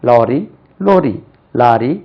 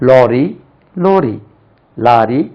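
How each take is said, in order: No difference in how they are said.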